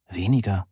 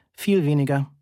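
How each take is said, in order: First: Said in the usual way. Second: Irritated, higher-pitched "Viel weniger". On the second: A narrator's reading. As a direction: correct them with audible irritation, pitched up. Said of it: "sagte ich gereizt".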